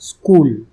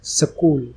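First: The s runs straight into the k. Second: A vowel is inserted between the s and k. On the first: The speaker calls it right. "इसको हमें बोलना चाहिए स्कूल, आधा स" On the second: The speaker calls it wrong. "ये गलत pronunciation है"

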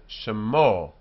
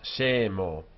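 First: The first vowel is reduced to a short shva. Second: The first vowel is a full e sound. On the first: The speaker calls it right. "the e of shem becomes a shva" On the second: The speaker calls it wrong. "not shemo"

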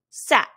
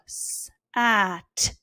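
First: The word is said quickly, as one whole. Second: The word is stretched out, sound by sound. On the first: The word is read as a whole. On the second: The sounds are being blended one at a time.

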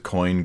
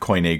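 First: The word is said like 'coin'. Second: The word is not said like 'coin'. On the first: The speaker calls it wrong. "he says Koine Greek instead of" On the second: The speaker calls it right. "instead of Koine"

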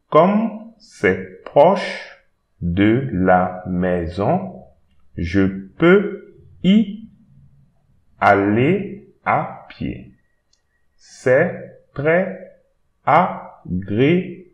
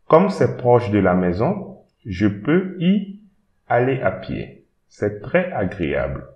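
First: It is read slowly and carefully. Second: It is read at a normal speed.

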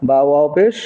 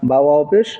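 The two takes are said the same way.

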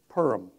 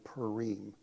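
First: It is said the Ashkenazi, Eastern European way. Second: It is said the Israeli Hebrew way. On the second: "That's how you would say it in Israel"

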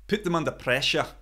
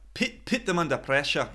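First: The vowel in 'put' sounds like the vowel in 'book'. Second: The vowel in 'put' sounds close to the vowel in 'pit'. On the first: "So I would say put or push" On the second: "Listen to how Andy Robertson says them"

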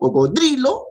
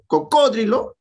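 First: The stress is on the third syllable. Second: The stress is on the second syllable. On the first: "sería la dos. Grave" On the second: "la tres, esdrújula"

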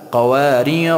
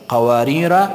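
First: The word ends with a long vowel. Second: The word ends with a short vowel. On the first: The reader stops after this word. "در حالت وقف" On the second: The reader continues into the next word. "در حالت وصل"

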